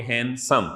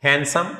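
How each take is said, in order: First: "handsome" in two separate pulses; syllable by syllable. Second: Said in the usual way. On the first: Shown as a demonstration. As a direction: split "handsome" into hand and some. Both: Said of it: "टू syllable adjective है".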